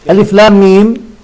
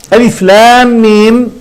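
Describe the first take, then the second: First: ألف لام ميم at normal pace, still stressing لام; plainer repeat. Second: ألف لام ميم said slowly, لام held long; spelled letter names. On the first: Teacher repeats the letters for students at normal pace. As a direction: say ألف لام ميم again more briskly. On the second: Teacher demonstrates the opening letters, slow and drawn out. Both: Shown as a demonstration. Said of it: "لا أقول ألف لام ميم حرف".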